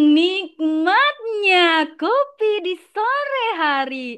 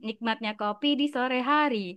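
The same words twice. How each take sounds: First: It is said in a cheerful, lively tone. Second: It is said in a flat, unvaried tone. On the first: This is the model delivery to copy. The speaker calls it right. "Aku contohin ya" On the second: The imitation failed to copy the model. The speaker calls it wrong. "A I-nya tetap ngomongnya kayak gitu"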